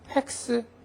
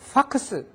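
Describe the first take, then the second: First: The first vowel is a front 'ae' sound. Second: The first vowel is an open 'ah' sound. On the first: Japanese listeners do not understand it. "팩스 해도 못 알아들어요" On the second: Japanese listeners understand it. "파 발음을 하니까 알아들어요"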